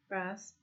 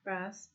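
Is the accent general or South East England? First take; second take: general; general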